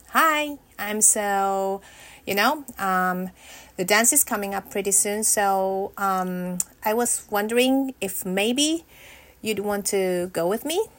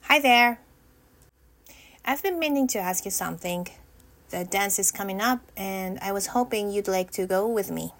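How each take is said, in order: First: Halting, hesitant ask full of ums; nervous. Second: Short and sweet, steady and sure; confident. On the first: Rehearsing asking a boy to the dance, nervous and stumbling. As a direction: stumble through the invitation with jittery nerves. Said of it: "Way too nervous". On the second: Rehearsing the dance invitation, calm and confident. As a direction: ask it plainly with calm confidence. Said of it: "That was pretty good". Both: Pretend.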